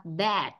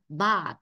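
First: "bad" with an open e, close to "bed"; British "bad", vowel like "e bẹp"; British English. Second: "bad" with a long open a, "baad"; American "bad", stretch the a; American English. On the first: Teacher contrasts British "bad" with American for the class. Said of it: "Nếu theo tiếng Anh, Anh ta đọc là bad". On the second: Teacher gives the American "bad" after the British one. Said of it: "tiếng Anh Mỹ ta đọc là bad". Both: Shown as a demonstration.

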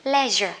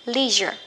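First: LEISURE as British "LEH-zher"; short E in LEISURE, the British way. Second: LEISURE as American "LEE-zher"; long EE in LEISURE, the American way. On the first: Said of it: "người Anh thì thích đọc là". (đọc LEISURE kiểu Anh, "le-giơ") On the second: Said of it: "Người Mỹ á thì thích đọc". (đọc LEISURE kiểu Mỹ, "li-giơ") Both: Shown as a demonstration.

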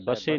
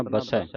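First: ਬਸੇ with a closed "ay" ending; mistaken e ending. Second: ਬਸੈ with a wide open "eh" ending; ਬਸੈ, last vowel open. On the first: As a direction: end ਬਸੇ on a narrow e. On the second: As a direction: end ਬਸੈ on a broad ai. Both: Shown as a demonstration. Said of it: "ਬਸੇ ਨਹੀਂ ਪੜ੍ਹਨਾ".

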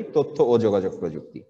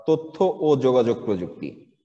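First: One flowing phrase, no breaks between words; in one breath. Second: Measured, slow. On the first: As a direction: run the whole name together without pause. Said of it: "এক নিঃশ্বাসে বলে ফেলি". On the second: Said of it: "আমরা এক নিঃশ্বাসে বলে ফেলি". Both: Shown as a demonstration.

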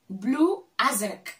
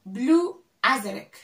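Both takes have the same delivery.

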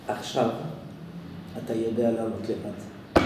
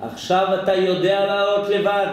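First: Quiet father. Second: Emphatic clearer restatement; father's lesson restated. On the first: Retold or imitated. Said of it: "הוא אומר". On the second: Shown as a demonstration. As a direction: say it again firmly for the listener. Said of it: "למטה?".

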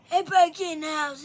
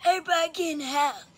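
First: Quicker, raised grandpa call; old man voice. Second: Put-on raised, quick old man holler. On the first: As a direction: yell it like a cranky old man. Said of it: "that's good old man voice". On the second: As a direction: bark it like a grumpy grandpa. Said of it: "This is my old man voice". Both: Shown as a demonstration.

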